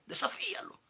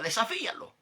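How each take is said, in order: First: Desafíalo whispered much higher, like a hiss in the ear; sly whispered temptation; whispered dare. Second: Desafíalo said higher and louder as a dare; mock tempter's loud dare; taunting dare. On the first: Retold or imitated. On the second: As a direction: goad him into it. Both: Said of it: "me decía aquella voz".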